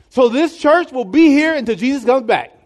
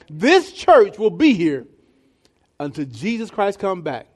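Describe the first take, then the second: First: It is said fast. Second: It is said slowly.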